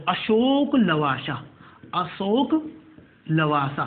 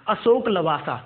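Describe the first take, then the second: First: "Ashok Lavasa" very slowly, vowels stretched; slow dictation. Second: Said in the usual way. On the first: Shown as a demonstration. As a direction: draw out "Ashok Lavasa" so students can write it. Repeating the name slowly for dictation.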